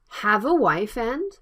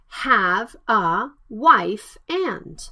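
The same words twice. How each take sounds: First: The words run together with consonants linked to vowels. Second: Each word is said separately without linking. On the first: The speaker calls it right. "Consonant and vowel blended" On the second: The speaker calls it wrong.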